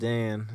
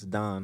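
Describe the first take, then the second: First: The vowel sounds like the one in 'can'. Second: The vowel sounds like the one in 'con'. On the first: The speaker calls it wrong. "It's not Dan" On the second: The speaker calls it right. "It's Don"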